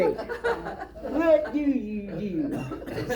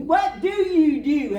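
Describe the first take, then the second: First: Laughing repeat. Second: Loud, high, slow disbelief; disgusted exclamation. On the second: Local man disgusted with the newcomer, loud slow disbelief. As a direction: throw up your hands in disgust. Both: Retold or imitated.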